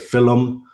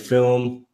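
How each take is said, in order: First: The word is said in an Irish way. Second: The word is said in a standard way. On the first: "sometimes I say film" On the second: "instead of saying film"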